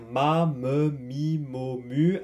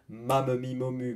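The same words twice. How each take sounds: First: The syllables are said at a slow pace. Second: The syllables are said at a fast pace.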